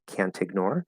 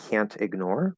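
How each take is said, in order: The two takes are said the same way.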